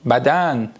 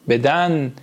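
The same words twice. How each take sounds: First: "بدن" with short a in first syllable; Persian pronunciation. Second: "بدن" with e in first syllable; Turkish pronunciation. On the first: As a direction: say "بدن" as badan, Persian style. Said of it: "یعنی چی؟". («بدن» به فارسی، بَدَن) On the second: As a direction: say "بدن" as beden, Turkish style. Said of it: "تفاوتی که داره تو فتح و کسره". («بدن» به ترکی، بِدَن) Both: Shown as a demonstration.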